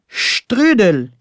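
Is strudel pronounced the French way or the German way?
German. The word is pronounced with German-style sounds. The speaker calls it right. "on dit le strudel"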